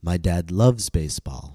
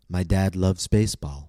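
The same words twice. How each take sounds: First: The stress falls on the word loves. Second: The stress falls on the word baseball. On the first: He does more than just like it. "I'm stressing the word loves" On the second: All of the information is new. "I stressed baseball because almost all of the information was new"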